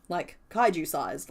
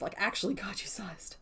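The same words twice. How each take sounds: First: Slow, drawn out "kaiju sized"; "kaiju sized" said slowly with weight; stressed kaiju. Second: Hushed "actually kaiju sized" with a laugh; breathy laughing whisper of "kaiju sized"; whispered aside. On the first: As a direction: lean on "kaiju" and stretch it. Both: Real, not acted.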